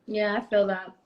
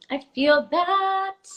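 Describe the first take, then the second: First: Said in the usual way. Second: Drawn-out emphatic. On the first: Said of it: "repeats the phrase". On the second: Real, not acted. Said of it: "repeats, drawn out higher".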